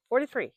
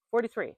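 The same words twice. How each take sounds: First: Forty-three punched higher and louder; repeating her age to viewers, Forty-three hit harder; stronger emphatic repeat. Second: Higher and louder on Forty-three; telling her age to viewers, Forty-three stressed; emphatic repeat. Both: Shown as a demonstration.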